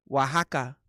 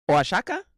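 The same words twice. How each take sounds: First: "Oaxaca" said wa-HA-ka, with a throaty h; "Oaxaca" as wah-HAH-kah, falling; correct pronunciation. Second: "Oaxaca" said oa-SHA-ka, with a sh sound; "Oaxaca" like oa-sha-ka, rising; Oaxaca said wrong. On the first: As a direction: say "Oaxaca" the Mexican way, wa-ha-ka. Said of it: "se dice". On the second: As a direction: say "Oaxaca" with sh in the middle. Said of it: "lo dije correcto". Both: Shown as a demonstration.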